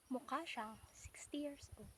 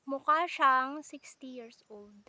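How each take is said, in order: First: Unvoiced whisper on "mukha siyang sixty years old"; whispered aside. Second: Put-on louder and slow on "mukha siyang sixty years old"; emphatic claim. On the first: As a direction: whisper it like a secret. (pabulong na parang sikreto) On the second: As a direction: announce it proudly and slowly. (malakas at mabagal na pagsabi) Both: Shown as a demonstration.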